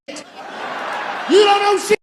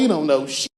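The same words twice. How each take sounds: First: You don't know shit, shouted high, slow and loud. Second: Said in the usual way. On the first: Shown as a demonstration. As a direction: stretch and yell it out. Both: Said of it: "said twice, second shouted".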